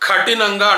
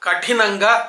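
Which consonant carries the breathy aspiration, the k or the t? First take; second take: k; t. First: The k is aspirated and the t is plain. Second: The k is plain and the t is aspirated. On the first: The speaker calls it wrong. "కఠినంగా అంటున్నారు" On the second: The speaker calls it right. "కాకి ఒత్తు లేదు, తాకి ఒత్తుంది"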